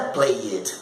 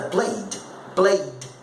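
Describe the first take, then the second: First: "played" as two syllables, play-ed; wrong ED ending. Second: "played" as one syllable, just a d added; correct ED ending. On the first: Teacher showing students what not to say, play-ed. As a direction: add a false vowel before the d in "played". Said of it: "Não é played". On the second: Teacher correcting the class, one-syllable played. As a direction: say "played" as playd, no extra vowel. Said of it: "é played". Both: Shown as a demonstration.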